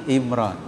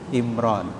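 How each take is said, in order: Both takes have the same delivery.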